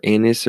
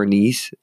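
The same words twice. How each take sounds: First: "anise" stressed up front, like "AN-iss". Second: "anise" with a long ee, like "a-NEESE". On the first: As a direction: say "anise" with a short i at the end. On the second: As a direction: say "anise" to rhyme with niece. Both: Shown as a demonstration. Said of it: "or anise or however you say it".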